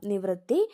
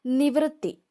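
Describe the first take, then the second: First: Said in the usual way. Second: നിവൃത്തി pitched higher, falling; announced word. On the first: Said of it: "വൃത്തിയുടെ ആ വൃ". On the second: Shown as a demonstration. Teacher announcing the word to students, pitched up. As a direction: call out നിവൃത്തി on a raised note. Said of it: "നീ വൃ".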